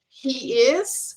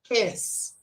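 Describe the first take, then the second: First: Both words are said fully and separately. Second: The words are squeezed into one short syllable.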